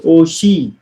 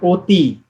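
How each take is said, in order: First: The middle consonant is an sh sound. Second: The middle consonant is a t sound. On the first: The speaker calls it right. "It will be pronounced as oshi" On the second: The speaker calls it wrong. "not oti"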